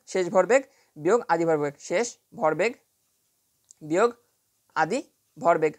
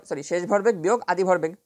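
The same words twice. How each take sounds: First: শেষ ভরবেগ, বিয়োগ, আদি ভরবেগ spaced out with pauses; dictating word by word. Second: Said in the usual way. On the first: Shown as a demonstration. Teacher dictating the formula to students, chunk by chunk with pauses. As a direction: spell it out in chunks, pausing after each part.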